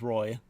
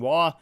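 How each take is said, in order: First: The name is said like 'Roy'. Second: The name is said like 'Wah'. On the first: This is the Americanized way of saying the name. The speaker calls it right. "obviously it is Roy" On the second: This is the French Canadian way of saying the name. The speaker calls it wrong. "I'm just so used to saying Waugh"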